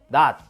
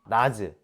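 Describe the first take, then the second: First: The word ends in a closed t sound. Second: The word ends with a released j and vowel. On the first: The speaker calls it right. "디귿으로 발음합니다" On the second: The speaker calls it wrong. "발음하는 사람은 없어요"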